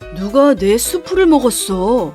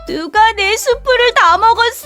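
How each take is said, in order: First: It is said in a low voice. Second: It is said in a high, crying voice.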